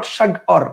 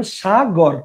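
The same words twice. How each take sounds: First: "সাগর" broken after সাগ, the wrong split; wrong sag-or. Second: "সাগর" said naturally, breaking after সা; correct sagor. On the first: ("সাগর" সাগ-র করে ভুল ভাগে বলা) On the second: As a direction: say "সাগর" as sa-gor. ("সাগর" সা-গর করে বলা) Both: Shown as a demonstration. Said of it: "not সাগর".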